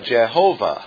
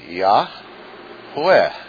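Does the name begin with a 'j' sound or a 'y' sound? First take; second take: j sound; y sound. First: The name begins with a 'j' sound. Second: The name begins with a 'y' sound. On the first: The speaker calls it wrong. "But that's not God's name" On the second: The speaker calls it right. "probably correct pronunciation of God's name is Yahweh"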